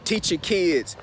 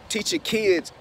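The two takes are said the same way.

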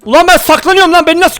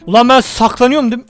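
First: Louder, higher outburst; exasperated shout. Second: Said in the usual way. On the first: Real, not acted. Gamer spotted while hiding, shouting in disbelief. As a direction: yell it in disbelief.

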